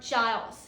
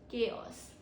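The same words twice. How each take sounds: First: It begins with a 'ch' sound. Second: It begins with a 'k' sound. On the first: The speaker calls it wrong. "not C H, not chaos" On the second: The speaker calls it right. "C H sounds like K ... We say chaos"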